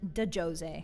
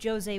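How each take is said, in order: First: The D is said as its own syllable. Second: The D is joined into the first syllable. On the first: The speaker calls it wrong. "you may have pronounced it de Jose. But you are wrong" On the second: The speaker calls it right. "That's Jose with a D"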